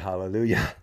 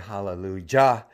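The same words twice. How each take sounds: First: The last syllable starts with a Y sound. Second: The last syllable starts with a J sound. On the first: The speaker calls it right. "you say hallelujah" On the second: The speaker calls it wrong. "you don't say hallelujah"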